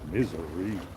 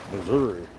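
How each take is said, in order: First: It is said so it sounds like 'misery'. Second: It is said with the usual 'Missouri' vowels.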